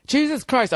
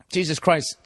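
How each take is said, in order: First: Exasperated at himself. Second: Said in the usual way. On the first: Real, not acted. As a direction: groan at your own mistake. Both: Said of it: "I forgot".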